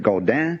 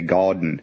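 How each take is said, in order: First: The name is said with a French pronunciation. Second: The name is said with an American pronunciation. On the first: "that's the French way of saying it" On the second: "they say Gaudin in American, American English"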